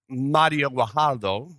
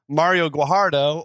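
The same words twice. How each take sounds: First: The name is said with a Spanish accent. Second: The name is said with an English accent.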